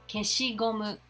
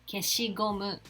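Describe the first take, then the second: No difference in how they are said.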